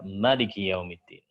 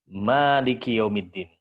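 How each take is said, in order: First: The first vowel of maliki is kept short. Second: The first vowel of maliki is held long. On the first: No alif is assumed after the first letter. "kebalikannya qasr berarti dia menghapus alif" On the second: An alif is assumed after the first letter. "Ketika kita menetapkan adanya alif, maka dibaca dengan mad"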